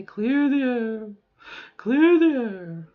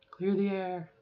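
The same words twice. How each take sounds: First: Drawn-out, higher, louder glide; voice reset exercise. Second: Said in the usual way. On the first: Shown as a demonstration. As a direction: stretch CLEAR THE AIR slowly, lifting the pitch. Vocal exercise back to higher voice.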